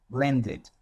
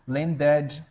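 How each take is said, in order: First: "landed" ending in a short id; right landed. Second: "landed" with a wrong ending; the way not to say it. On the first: Teacher giving the correct landed. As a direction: say the final id lightly. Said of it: "eu estou dizendo". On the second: Teacher showing the wrong form of landed. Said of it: "Não estou dizendo". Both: Shown as a demonstration.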